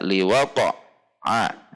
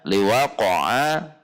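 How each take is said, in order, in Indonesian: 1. Ada jeda di dalam kata ini. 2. Kata ini mengalir tanpa jeda. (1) "Contoh yang dijeda liwaqa'a, ada jeda" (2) "tidak boleh dijeda"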